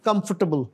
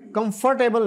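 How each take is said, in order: First: The stress falls on the first syllable. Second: The stress falls on the second syllable. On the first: The speaker calls it right. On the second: The speaker calls it wrong.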